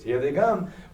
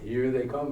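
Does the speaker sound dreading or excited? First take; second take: excited; dreading. First: The phrase sounds eager and full of excitement. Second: The phrase sounds wary and full of dread. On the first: Newcomers are welcomed. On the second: Newcomers are seen as a threat.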